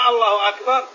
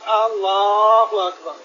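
First: The opening vowel is short, not drawn out. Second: The opening vowel is drawn out long. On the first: It is a statement. The speaker calls it right. "نعم" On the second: It sounds like a question. The speaker calls it wrong. "ولا يمدها"

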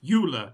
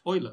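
First: Euler is said with an anglicized pronunciation. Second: Euler is said with a Germanic pronunciation. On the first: The speaker calls it wrong. "She pronounces it Euler" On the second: The speaker calls it right. "not the correct Euler"

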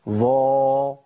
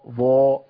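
First: The vowel stays open with slight lip rounding. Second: Strongly rounded lips push the vowel toward 'u'. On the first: The speaker calls it right. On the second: The speaker calls it wrong.

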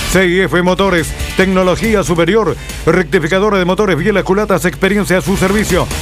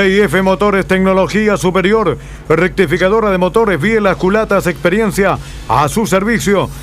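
Both takes have the same delivery.

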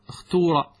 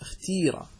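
First: The vowel after the t is a u sound. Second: The vowel after the t is an i sound. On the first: "اللغة الأولى ... الضم" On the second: "اكسر التاء"

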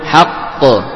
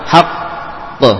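First: The doubled consonant is held only briefly. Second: The doubled consonant is held for a long time. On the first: The speaker calls it right. "jadi tidak lama" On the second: The speaker calls it wrong.

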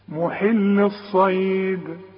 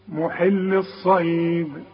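Both takes have the same delivery.

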